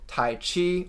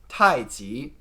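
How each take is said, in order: First: It is said with an American English pronunciation. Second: It is said with a Mandarin Chinese pronunciation. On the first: The speaker calls it wrong. "I'm pronouncing these like an American would" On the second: The speaker calls it right. "The correct pronunciations are actually"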